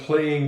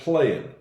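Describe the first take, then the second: First: The final g of playing is clearly pronounced. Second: The final g of playing is dropped. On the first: The speaker calls it wrong. "We don't say I'm playing guitar" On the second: The speaker calls it right. "It's usually said playing. We shorten it up"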